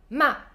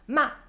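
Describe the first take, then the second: No difference in how they are said.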